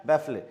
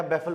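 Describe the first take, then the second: First: बैफले read with a final "le" sound, बैफ-ले; mispronounced बैफले, spelling-style reading; wrong baffle reading. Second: बैफल said as "baffle", with no "le" at the end; बैफल rhymes with "waffle"; proper English pronunciation of बैफल; correct baffle. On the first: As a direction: say बैफले as two parts, ending in "le". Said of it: "ली नहीं पढ़ा जाएगा". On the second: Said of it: "बैफल पढ़ा जाएगा". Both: Shown as a demonstration.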